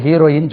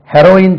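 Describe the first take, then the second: First: ஹீரோயின் starting with a long "hee-"; long first vowel. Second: ஹெரோயின் starting "heh-", not "hee-"; short first vowel. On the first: Teacher quotes the common name for a leading lady, long-ee mispronunciation. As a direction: say ஹீரோயின் with ee in front. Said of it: "இதுக்கு ஹீரோயின் சொல்றாங்க". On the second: Teacher quotes the word for the drug, short-e pronunciation. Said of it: "ஹெரோயின் சொல்றாங்க". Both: Shown as a demonstration.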